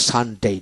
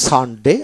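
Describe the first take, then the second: First: "সানডে" with a long "dei" ending; second of two pronunciations. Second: "সানডে" with a short final "de"; first of two pronunciations. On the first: Teacher showing two pronunciations, drawn-out ending on "সানডে". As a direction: stretch the ending of "সানডে" into a glide. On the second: Teacher showing two pronunciations, short ending on "সানডে". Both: Shown as a demonstration. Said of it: "দুটো উচ্চারণ হয়".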